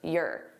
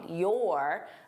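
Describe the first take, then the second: First: The word is unstressed and reduced in the throat. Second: The word is stressed with the mouth wide open. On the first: "I can just say your" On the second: "which is very stressed, I need to open my mouth wide"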